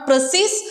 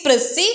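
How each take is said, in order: First: The word ends with an audible s sound. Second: The word ends without any s sound. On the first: The speaker calls it wrong. "Not പ്രസീസ്" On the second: The speaker calls it right. "ഈ എസ് ഇവിടെ silent ആണ്"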